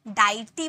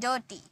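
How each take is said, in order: First: The first vowel sounds like 'eye'. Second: The first vowel sounds like 'er'. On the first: The speaker calls it wrong. "डाइटी बोले क्या" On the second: The speaker calls it right. "इसे अ में pronounce किए"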